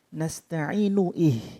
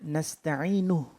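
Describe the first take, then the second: First: A glottal stop is heard before 'ih'. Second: The words run together without a glottal stop. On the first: The speaker calls it wrong. "bukan nasta'inu ih" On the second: The speaker calls it right. "Jadi membacanya nasta'inu"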